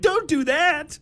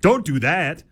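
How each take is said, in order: First: It is said in a high, surprised voice. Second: It is said in a normal speaking voice.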